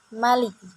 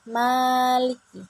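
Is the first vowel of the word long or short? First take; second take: short; long. First: The first vowel is kept short. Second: The first vowel is held long.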